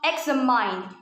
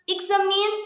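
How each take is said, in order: First: The last syllable sounds like the word 'mine'. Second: The last syllable does not sound like 'mine'. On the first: The speaker calls it wrong. "instead of examine" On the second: The speaker calls it right. "should be pronounced examine"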